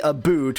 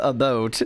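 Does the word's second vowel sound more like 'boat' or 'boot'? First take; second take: boot; boat. First: The second syllable sounds like the word boot. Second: The second syllable sounds like the word boat. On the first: This is how outsiders imitate the accent. The speaker calls it wrong. "the thing that people say a boot, which is not even close to the sound" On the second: This is how the accent really sounds. The speaker calls it right. "It's oh a boat"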